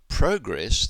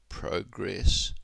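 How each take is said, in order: First: The stress is on the first syllable. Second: The stress is on the second syllable. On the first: It is used as a noun. "the noun, has the stress on the first syllable" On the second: It is used as a verb. "they have the stress on progress, progression, on the second syllable"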